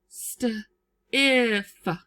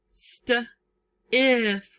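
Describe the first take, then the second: No difference in how they are said.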